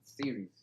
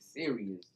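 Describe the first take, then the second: First: It has two syllables, like 'series'. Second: It has an extra syllable, like 'serious'. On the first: The speaker calls it right. "not series" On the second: The speaker calls it wrong. "you're saying serious"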